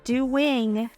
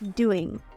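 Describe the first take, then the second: First: The word is said slowly and carefully. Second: The word is said very fast. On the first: "Instead of doing" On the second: "say that word very fast"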